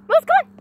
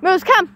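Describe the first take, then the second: First: High sing-song call to the dog. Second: Said in the usual way. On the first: Real, not acted. Calling her dog Moose to come, high coaxing call.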